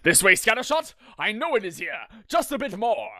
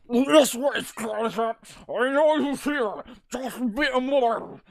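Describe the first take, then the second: First: It is said in a clear voice. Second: It is said in a muffled, gurgling voice.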